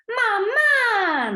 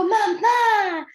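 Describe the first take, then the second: First: Put-on high, falling mamá like a hurt toddler; a child's hurt call of mamá, pitched high and falling; reproachful child. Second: High, loud delighted mamá; a toddler's happy shout of mamá, pitched high; joyful child. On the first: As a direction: complain to mom for leaving you. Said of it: "Mamá, ¿por qué me dejaste?". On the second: Retold or imitated. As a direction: greet mom, thrilled she's here. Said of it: "le da mucho gusto".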